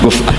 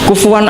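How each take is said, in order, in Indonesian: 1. Kata kufuwan punya hamzah di tengah. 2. Kata kufuwan punya bunyi w di tengah. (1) "kufan itu mahmuslam" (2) "Imam Asim milih partai itu wawu"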